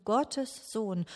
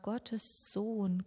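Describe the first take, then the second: First: "Gottes Sohn" said firmer, stress on "Gottes"; "Gottes Sohn" rising in conviction; growing emphasis. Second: Said in the usual way. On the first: Real, not acted. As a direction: let "Gottes" ring out as the echo grows. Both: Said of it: "es hallt immer stärker in mir nach".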